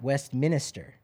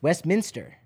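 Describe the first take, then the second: First: The ending is said as minister, four syllables. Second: The ending is said as minster, three syllables. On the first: The speaker calls it wrong. "not Westminster. It's not minister" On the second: The speaker calls it right. "It's Westminster"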